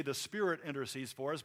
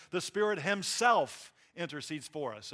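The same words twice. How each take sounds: First: Said in the usual way. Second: Emphatic weight on the word "himself"; stress on himself. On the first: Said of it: "He could just say". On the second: Shown as a demonstration. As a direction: lean hard on "himself" for emphasis. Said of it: "it's for emphasis".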